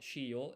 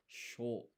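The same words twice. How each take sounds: First: Shiyo as two syllables, shi then yo; wrong split syllables. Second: Sho as one blended syllable. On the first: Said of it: "not shiyo, it's sho". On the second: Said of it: "one blended syllable". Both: Shown as a demonstration.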